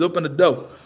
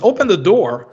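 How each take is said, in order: First: The final R in door is dropped. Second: The final R in door is clearly pronounced. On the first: "Fala assim" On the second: "eles não falam"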